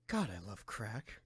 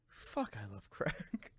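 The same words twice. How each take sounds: First: Low, flat murmur imitating a friend; low deadpan mutter. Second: Low, slow flat murmur; low deadpan mutter. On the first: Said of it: "just randomly hearing you". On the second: Retold or imitated. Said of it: "Same thing, like".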